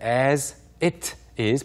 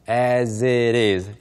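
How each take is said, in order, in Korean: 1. 각 단어를 따로 발음해요. 이어서 하지 않아요. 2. 단어들이 붙어서 하나로 이어져 발음돼요. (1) "보다는" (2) "연결해서 발음하는"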